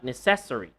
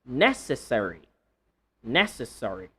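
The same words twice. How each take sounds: First: Necessary stressed on CES; wrong stress. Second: Necessary stressed on NE. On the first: Teacher showing students wrong stress in necessary. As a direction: lean on the second syllable of necessary. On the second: Teacher modelling the correct stress of necessary. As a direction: hit the first syllable of necessary. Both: Shown as a demonstration. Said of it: "Not necessary".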